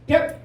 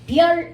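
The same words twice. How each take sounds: First: The final sound is cut off abruptly. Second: The final sound is held normally. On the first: "좀 더 빨리 입을 닫아야 돼" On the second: "별 이렇게 발음하지 않고"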